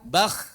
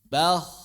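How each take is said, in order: First: The final consonant is rasped very harshly. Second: The final consonant is rasped gently. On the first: The speaker calls it wrong. "bukan bah" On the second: The speaker calls it right.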